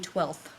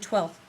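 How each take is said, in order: First: The final th sound is clearly pronounced. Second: The final th sound is left out. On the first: The speaker calls it right. "remember to pronounce the th" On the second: The speaker calls it wrong. "It should not be"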